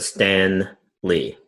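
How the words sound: The name has a clear break between parts. The speaker calls it right. "Emphasis on the space"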